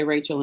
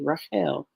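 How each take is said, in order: First: RACHEL said the English way, RAY-chul; English pronunciation. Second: Rachel said rah-KHEL, with a throaty kh; Hebrew pronunciation. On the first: Teacher giving the English name, English pronunciation of Rachel. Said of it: "we would say Rachel in English". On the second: Teacher giving followers the Hebrew name, Rachel as rah-KHEL. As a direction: stress the last syllable of Rachel, rah-KHEL. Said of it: "the Hebrew names". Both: Shown as a demonstration.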